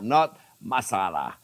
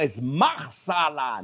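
First: "masala" said without any R, a little slow; contrasting "masala" with no R sound; wrong pronunciation. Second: "marsala" said slowly, with the R sounded in the middle; drawing out "marsala" to show the R; correct pronunciation. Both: Shown as a demonstration. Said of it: "you forgot there is an R".

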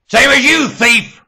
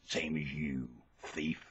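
First: High, very loud yell; explosive high shout; shouted accusation. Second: Low, soft accusing voice; soft, low-pitched jab; quiet accusation. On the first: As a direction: hurl the accusation at full voice. Repeats it as a shout. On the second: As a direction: say it low and under the volume. Quiet first take. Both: Real, not acted.

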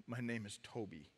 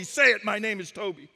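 First: Very soft, low mumble; broken mumble. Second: Loud, forceful shouted demand; commanding slave-whipper. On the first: Beaten man in his own blood giving in, mumbling. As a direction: barely get it out, all fight gone. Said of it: "he mumbles these words". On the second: Whipper demanding the slave name from the chief, commanding. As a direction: force the words on him. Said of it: "once again, he says". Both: Acted.

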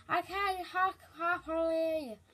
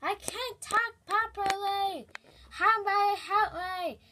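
First: Slurred gummy toothless words; toothless lisp. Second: Slow, mushy toothless talk; toothless speech. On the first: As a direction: mash the words without teeth. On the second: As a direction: talk with no teeth, slowly. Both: Acted. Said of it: "made my teeth fall out".

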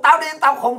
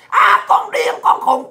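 First: Said in the usual way. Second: High mimicking taunt; mock the name-callers in a raised pitch; hecklers' mock yelling. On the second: Ranter mimics critics calling them crazy, high mock yell. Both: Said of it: "tụi bay la làng hoài".

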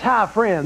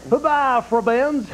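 First: Said in the usual way. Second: "Bye-bye, friends" as "hubbi frubbends", an "ub" before each vowel; ubby-dubby language. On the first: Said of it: "That's hi, friends". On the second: Shown as a demonstration. Clinton shows Conan "friends" as "frubbends", ubby-dubby. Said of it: "responses in ubby-dubby language".

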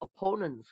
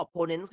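First: "opponents" as uh-PO-nents, weak first vowel; correct pronunciation. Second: "opponents" with a full O first, OP-po-nens; wrong pronunciation. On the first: Teacher correcting students' reading, "opponents" as uh-PO-nents. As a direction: stress the PO in "opponents". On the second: Teacher showing how foreigners don't read it, mispronounced "opponents". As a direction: say "opponents" the non-native way, OP-po-nens. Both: Shown as a demonstration. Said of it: "ฝรั่งไม่อ่านว่า opponents ค่ะ".

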